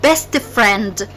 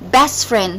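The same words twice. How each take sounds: First: The T of best is pronounced. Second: The T of best is dropped. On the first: The speaker calls it wrong. "not best friend" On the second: The speaker calls it right. "we skip the T when we pronounce it"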